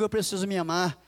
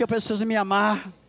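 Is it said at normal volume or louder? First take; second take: normal; louder. First: It is said at normal volume. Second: It is said louder and more forcefully.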